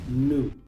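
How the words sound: It is said in an American way. "si quieren aprender el acento americano, esta palabra se pronuncia new"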